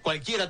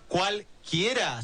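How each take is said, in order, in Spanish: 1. La palabra se dice como una sola unidad. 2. La palabra se divide en dos partes. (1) "sino cualquiera todo junto" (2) "No era cualquiera"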